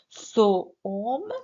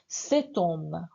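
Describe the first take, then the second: First: Two vowels meet with no T sound. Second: A T sound links into the noun. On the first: The speaker calls it wrong. "c'est faux" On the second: The speaker calls it right. "On fait la liaison. La liaison, c'est obligatoire"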